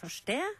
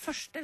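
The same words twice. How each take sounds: First: The stress is on the second syllable. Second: The stress is on the first syllable. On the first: The speaker calls it wrong. "vi sier ikke første" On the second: The speaker calls it right. "det har vi stort sett på første stavelse. Vi sier første"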